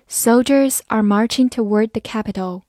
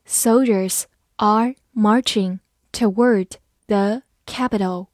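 First: Said in the usual way. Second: Slow, word-by-word model reading; slow dictation-style delivery for learners. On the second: Shown as a demonstration. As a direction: read slowly with a gap between words. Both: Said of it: "我们慢慢来读".

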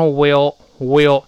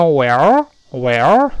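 First: "will，will" with a narrow i, slowly, as the wrong way to say "well". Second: "well，well" slow with a rising pitch, the learners' faulty version; mock the wrong "well，well". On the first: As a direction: mimic a student saying "will，will". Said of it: "有人把它读成will". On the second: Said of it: "这个都不对". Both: Shown as a demonstration.

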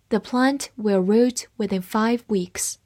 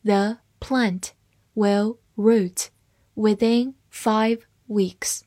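First: Said in the usual way. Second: Slow word-by-word reading with pauses; slow read-along. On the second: Shown as a demonstration. Teacher models the plant sentence for learners, slow and broken up. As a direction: read slowly, leaving gaps between the words. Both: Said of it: "慢慢来读".

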